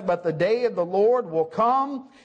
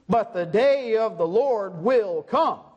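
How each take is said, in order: First: The word 'will' carries no special stress. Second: The word 'will' carries strong emphatic stress. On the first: The speaker calls it wrong. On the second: The speaker calls it right.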